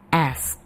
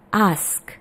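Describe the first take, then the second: First: The vowel is a flat 'ae' sound. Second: The vowel is a long open 'ah' sound. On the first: "Tapi kalau dalam American English" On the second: "Jadi seperti ada hanya di tengah"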